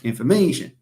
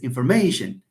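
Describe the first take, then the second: First: The word is said with an English pronunciation. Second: The same.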